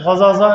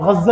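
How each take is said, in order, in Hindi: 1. दोनों एक जैसे व्यंजन अलग-अलग बोले जाते हैं। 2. दोनों एक जैसे व्यंजन मिलकर एक लंबा व्यंजन बन जाते हैं। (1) "इसको ऐसे भी पढ़ते हैं" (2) "मिला के"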